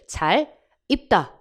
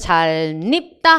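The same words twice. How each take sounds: First: The two words are split by a pause. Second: The two words run together as one. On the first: "끊어 있는 것도 가능" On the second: "한 단어처럼"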